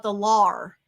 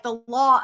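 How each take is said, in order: First: "lar" for law, with an R added at the end; added Boston R. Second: "law" attempted Boston-style, missing the added R; failed Boston R. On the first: Showing how she says law as "lar", R added. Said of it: "in which it adds an R". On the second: Failed demo of Boston "law", no R landing. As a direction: try "law" with an accent and lose the R. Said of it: "I can't say it". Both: Shown as a demonstration.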